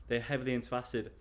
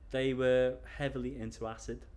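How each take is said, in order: First: Fast, clipped "They're heavily into acid" with "heavily" stressed; fast, matter-of-fact retake; quick plain rephrase. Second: Hesitant, stressing "were" as he searches for words; careful stress on were. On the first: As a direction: rush the rewording out. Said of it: "I don't know how to say it". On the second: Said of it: "how do I say it?". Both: Real, not acted.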